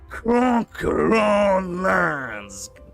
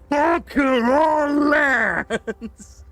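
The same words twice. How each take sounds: First: It is said in a more relaxed, chill way. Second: It is said in an intense, unrelaxed way.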